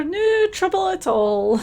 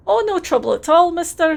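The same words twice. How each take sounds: First: Slow, higher Scottish repeat of "No trouble at all", stretching "No"; drawn-out cheery Scottish echo of "No trouble at all"; sing-song Scottish "No trouble at all", slowed down; terrible Scottish accent. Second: Hammed-up Scottish dockworker, a touch higher and cheerful; put-on Scottish accent, friendly and a bit overdone; terrible Scottish accent. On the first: Acted. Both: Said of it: "please enjoy my terrible Scottish accent".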